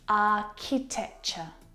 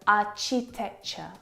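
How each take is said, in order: First: The 'ch' is said as 'k', like cat. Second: The 'ch' is said as 'tch', like church. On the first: The speaker calls it right. "The C H sound in this word is a K sound, like in cat" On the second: The speaker calls it wrong. "I hear architecture, architecture, which is incorrect"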